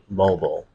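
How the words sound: It is said with an American pronunciation. "Americans say"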